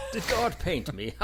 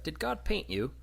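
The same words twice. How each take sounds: First: High, louder incredulous comeback; mock indignant man. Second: Put-on high, innocent child's question; imitated little kid. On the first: Man about to punch the little kid, mock indignant. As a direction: throw the question back, mock-offended. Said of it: "waiting for him to punch the little kid". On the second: Kid going up to Morgan Freeman, high and innocent. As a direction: ask it like a curious little kid. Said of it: "the kid goes up to Morgan Freeman".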